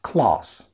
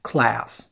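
First: The vowel is more open, British style. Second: The vowel is less open, American style. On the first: "في البريطاني بتبقى مفتوحة شوية" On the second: "في النطق الامريكي"

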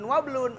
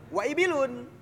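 First: The initial i vowel is dropped after wa. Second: The initial i vowel is kept after wa. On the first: The speaker calls it wrong. "Tidak menjadi ibilun wablun" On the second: The speaker calls it right. "Ibilun wa ibilun"

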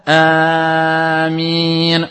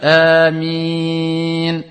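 First: The first vowel is held for too long. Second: The first vowel is held for two counts. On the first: The speaker calls it wrong. "umuman nasma' amin, wa hadha khata" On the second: The speaker calls it right. "c'est un mad de deux temps"

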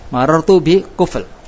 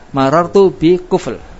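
Both takes have the same delivery.

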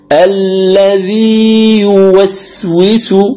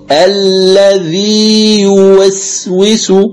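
Both takes have the same delivery.

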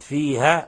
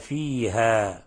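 First: The final vowel is cut short. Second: The final vowel has its natural length. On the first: The speaker calls it wrong. "أسقطت الألف" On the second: The speaker calls it right. "لاحظوا لما نقف على الألف"

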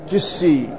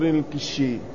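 First: The middle consonant is an s sound. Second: The middle consonant is an sh sound.

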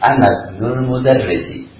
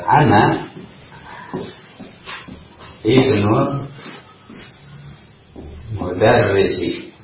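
First: The hamzah of ibnu is dropped, words linked. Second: The hamzah of ibnu is pronounced separately.

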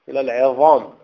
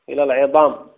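Both takes have the same delivery.

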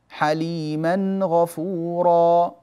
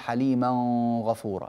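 First: The n sound is pronounced clearly before gh. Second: The n sound is hidden and nasalized before gh. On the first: The speaker calls it right. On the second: The speaker calls it wrong.

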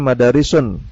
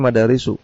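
First: The word ends with an added n sound. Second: The word ends on a plain u vowel. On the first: The speaker calls it wrong. "Tidak dibaca madarisun" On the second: The speaker calls it right. "tapi madarisu"

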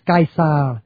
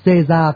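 First: The name is said with classical Latin pronunciation. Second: The name is said with modern French pronunciation. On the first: "đọc theo tiếng La Mã cổ là" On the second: "tiếng Pháp hiện đại gọi tên là ông Caesar"

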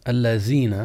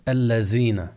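No difference in how they are said.

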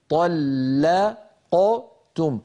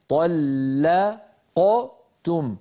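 No difference in how they are said.

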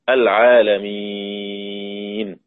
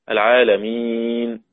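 First: The long vowel is held very long. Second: The long vowel is held a medium length. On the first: "وإشباع" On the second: "وتوسط"

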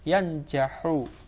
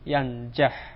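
First: The word ends with a short u vowel. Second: The word ends in a bare consonant. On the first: The verb is in the indicative mood. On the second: The verb is in the jussive mood. "Jadi asalnya majzum dengan sukun"

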